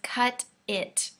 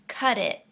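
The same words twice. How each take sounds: First: The two words are separate with a clear t. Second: The words join, with the t sounding like d. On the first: "in the sentence, it says cut it" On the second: "we put these two words together and it becomes cut it"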